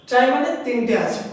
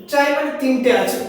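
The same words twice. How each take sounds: The two takes are said the same way.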